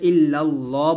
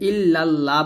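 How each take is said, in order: First: The L in Allah is thick and heavy. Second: The L in Allah is thin and light. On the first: The speaker calls it right. "বলতে হবে ইল্লাল্লাহ বলতে হবে" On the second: The speaker calls it wrong. "আমরা এখানে ইল্লাল্লাহ বলবো না"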